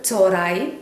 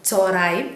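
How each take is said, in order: First: The middle h sound is dropped, said quickly. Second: The same.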